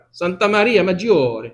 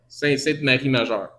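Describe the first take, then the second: First: Santa Maria Maggiore said with Italian vowels, madjor; proud little Italian accent on Santa Maria Maggiore. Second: Said in the usual way. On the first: Shown as a demonstration. Preacher showing off his Italian accent on the church name. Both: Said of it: "Mon accent italien, c'est parfait".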